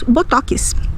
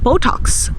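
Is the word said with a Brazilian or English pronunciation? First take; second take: Brazilian; English. First: The word has a Brazilian Portuguese pronunciation. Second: The word has an English-style pronunciation. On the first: The speaker calls it right. "nós diremos Botox" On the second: The speaker calls it wrong. "Nós não vamos dizer Botox"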